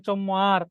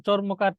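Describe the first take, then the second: First: চম্মার as chom-mar, r and k dropped; colloquial distorted pronunciation. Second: Said in the usual way. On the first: Shown as a demonstration. Teacher repeating examples of altered words, contracted চম্মার as chom-mar. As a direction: shorten it to চম্মার with a doubled m. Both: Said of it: "বিকৃত উচ্চারণ".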